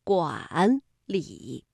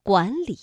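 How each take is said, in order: First: 管理 as two full third tones; 管理 uncorrected, both syllables in third tone; wrong tone demo. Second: 管理 with 管 rising in second tone; 管理 said as second tone plus third tone; tone sandhi. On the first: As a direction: say 管理 slowly, each syllable dipping low. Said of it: "不能读管理". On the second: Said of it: "把第一个字变成二声". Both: Shown as a demonstration.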